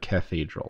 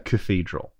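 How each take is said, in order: First: The first vowel is clearly pronounced, 'ca-thedral'. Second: The first vowel is dropped, like 'cthedral'. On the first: The speaker calls it right. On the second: The speaker calls it wrong.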